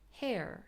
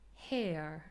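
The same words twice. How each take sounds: First: The vowel goes straight into a strong r. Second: The vowel glides into a schwa without an r. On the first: "the r is a lot more prominent and there is no schwa" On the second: "We have it in British English as a full diphthong"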